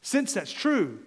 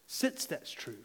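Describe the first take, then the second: First: Said in the usual way. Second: Hushed. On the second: Shown as a demonstration. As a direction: drop to a near hush on "Since that's true". Repeats phrase, second time hushed.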